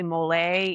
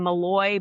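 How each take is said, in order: First: The name ends with a 'lay' sound. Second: The name ends with a 'loy' sound. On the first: The speaker calls it right. "but it's really Malay is how you pronounce it" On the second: The speaker calls it wrong. "I was saying Malloy"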